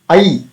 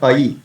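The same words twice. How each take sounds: First: The vowel is said with a little force. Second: The vowel is said plainly, without added force. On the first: The speaker calls it right. "I with little force" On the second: The speaker calls it wrong. "not I"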